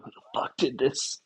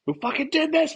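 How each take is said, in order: First: Said in the usual way. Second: High, loud enraged yell; mock rage, shouted high and loud; furious shout. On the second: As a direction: demand it at the top of your voice. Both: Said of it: "Just freaking out".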